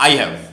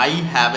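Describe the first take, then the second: First: "I have" run together as "I've"; short form of "I have". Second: Said in the usual way. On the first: Shown as a demonstration. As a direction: contract "I have" into one beat, I've. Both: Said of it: "এর short form হচ্ছে".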